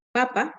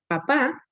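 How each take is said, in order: First: Papa stressed on its first syllable, PA-pa. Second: Papá stressed on its final syllable, pa-PÁ; stress on last syllable. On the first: Teacher giving an example word, papa stressed on the first syllable. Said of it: "posee acento en la penúltima sílaba". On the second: Teacher giving an example word, papá stressed on the last syllable. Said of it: "que lleva acento en la última". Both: Shown as a demonstration.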